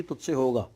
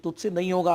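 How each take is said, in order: First: Said in the usual way. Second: Mock discouraging. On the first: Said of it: "आपको सुनाई देना चाहिए". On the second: Shown as a demonstration. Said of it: "आपको सुनाई देना चाहिए, तुझसे होगा".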